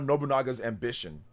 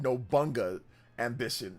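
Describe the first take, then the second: First: The name is said with all four syllables. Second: The name is squeezed into three syllables. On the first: The speaker calls it right. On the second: The speaker calls it wrong.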